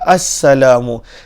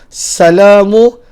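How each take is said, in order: First: It starts with a glottal 'a' and doubled s. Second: It starts directly with a single s sound. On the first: The speaker calls it right. "Dia mestilah assalamu" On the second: The speaker calls it wrong. "kalaulah dibuang hamzah, dibuang sabdu pada sin"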